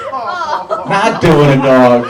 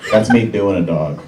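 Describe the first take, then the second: First: "Not doing a dog" drawn out high and loud; emphatic correction. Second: Said in the usual way. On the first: Shown as a demonstration. Comic correcting his own double meaning, "Not doing a dog" loud and drawn out. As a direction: stretch "Not doing a dog" slowly, pitched up and louder. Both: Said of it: "I should say imitating a dog".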